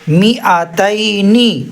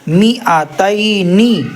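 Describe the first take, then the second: The two takes are said the same way.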